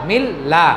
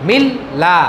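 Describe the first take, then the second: The two takes are said the same way.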